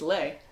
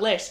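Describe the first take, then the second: First: The final S sound is silent. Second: The final S sound is pronounced. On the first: The speaker calls it right. "you almost never say the last letter of the words" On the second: The speaker calls it wrong. "It's not les"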